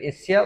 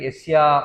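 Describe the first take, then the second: First: The final vowel is short. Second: The final vowel is long. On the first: "ఒక దగ్గర యస్య" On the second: "దీర్ఘం"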